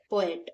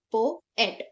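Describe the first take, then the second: First: Said in the usual way. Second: पोएट said as two parts, पो then एट; split into syllables. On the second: Shown as a demonstration. Teacher to students dividing पोएट into syllables. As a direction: break पोएट between the two vowels. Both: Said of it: "इसके बीच से हम divide करेंगे".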